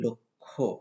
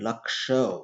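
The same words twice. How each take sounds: First: The cluster is said as a doubled k-kh sound. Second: The cluster is said with a clear k-sh sound. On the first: This is how Bengali speakers say it. "আমরা বলি লক্ষ্য" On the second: This is how Hindi speakers say it. "এই লক্ষ্যকে ওরা বলে লক্ষ্য"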